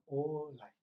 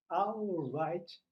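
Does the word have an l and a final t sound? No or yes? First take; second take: No; Yes. First: It has no l and no final t. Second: It has an l and ends in a t. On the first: This is how Japanese speakers adapt it. "eles falam orai" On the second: This is the original English word. "mas orai é alright"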